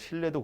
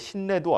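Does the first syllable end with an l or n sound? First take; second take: l sound; n sound. First: The first syllable ends with an l sound. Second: The first syllable ends with an n sound. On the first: The speaker calls it right. "신뢰도 그러잖아. 왜 리을 발음이 되지?" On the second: The speaker calls it wrong. "신뢰도 안 하고"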